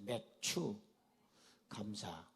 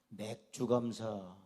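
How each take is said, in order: First: The first word sounds like barley harvest, not beer. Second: The first word sounds like the word for beer. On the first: It names the harvest thanksgiving. The speaker calls it right. "그게 아니고" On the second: It sounds like giving thanks for beer. The speaker calls it wrong. "이거 발음을 잘못하면요, 맥주 감사, 에, 먹는 맥주 있잖아요"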